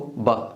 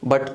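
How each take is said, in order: First: The final t is held and cut off. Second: The final t is fully released.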